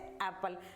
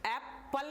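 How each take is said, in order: First: The stress is on the first syllable. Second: The stress is on the second syllable. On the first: The speaker calls it right. "ए थोड़ा लंबा खींचेंगे, stress देके दबाव देके बोलेंगे" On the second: The speaker calls it wrong. "Apple ना पढ़ के पी पे इसको स्ट्रेस नहीं देंगे"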